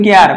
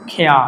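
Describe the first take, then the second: First: Said in the usual way. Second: "খেয়া" with aspirated k and no final R; R-less British pronunciation. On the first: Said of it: "তাহলে উচ্চারণ হবে না". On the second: Shown as a demonstration. Teacher shows learners British care, "খেয়া" with silent R. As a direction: let "খেয়া" end on an open vowel. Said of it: "আর ই আছে তাহলে উচ্চারণ হবে না".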